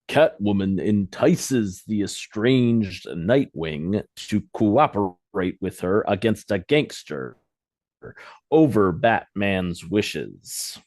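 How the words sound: It is read with pauses for punctuation.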